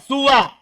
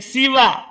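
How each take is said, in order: First: The s carries a short u vowel. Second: The s carries a short i vowel. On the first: "Dengan dibaca qasr juga... sinnya di dhamma" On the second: "Dan di kasro sinnya"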